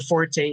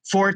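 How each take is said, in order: First: The word is said as two syllables. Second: The word is said as one syllable.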